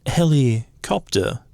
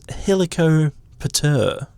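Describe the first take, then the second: First: The word breaks into heli and copter. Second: The word breaks into helico and pter. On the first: The speaker calls it wrong. "rather than helicopter" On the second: The speaker calls it right. "we should be splitting it as"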